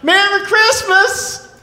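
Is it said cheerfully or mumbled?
cheerfully. It is said brightly and cheerfully.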